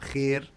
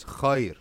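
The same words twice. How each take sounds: First: "khair" with a flattened "kheh-r" vowel; smooth khair into one thin e sound; colloquial khair. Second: "khayr" with heavy kh and an open "ai" glide; correct khayr. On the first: Teacher shows the everyday form to avoid, flattened vowel. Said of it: "not khair". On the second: Teacher gives the correct pronunciation, full diphthong. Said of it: "actual correct pronunciation is". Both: Shown as a demonstration.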